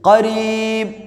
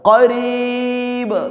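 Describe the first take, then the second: First: The final b is cut short without release. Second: The final b is released with an audible bounce. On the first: The speaker calls it wrong. "ഖരീബ് പോരാ" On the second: The speaker calls it right. "ബ കേൾക്കണം, നന്നായിട്ട് ഇൽഹാറാക്കണം"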